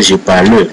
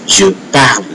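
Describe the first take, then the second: First: "je parle" with an extra "uh" after the L; wrongly sounded final E. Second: "je parle" ending on the L; silent final E. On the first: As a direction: say "parle" as two syllables, "par-luh". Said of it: "You can't say je parle, no". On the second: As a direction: say "parle" as one syllable, "parl". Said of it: "So it's je parle". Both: Shown as a demonstration.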